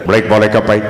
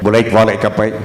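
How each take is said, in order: Both takes have the same delivery.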